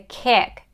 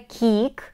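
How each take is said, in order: First: The vowel is said relaxed, like eh. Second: The vowel is said tense, not relaxed. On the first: The speaker calls it right. "it's a kick. It's a relaxed eh sound" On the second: The speaker calls it wrong. "it's not a kick"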